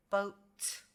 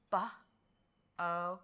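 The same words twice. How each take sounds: First: Said in the usual way. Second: "B-O-T" as three separate sounds, b, oh, t; sounded out. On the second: Shown as a demonstration. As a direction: pause between each sound of "B-O-T". Teacher sounds out boat by parts.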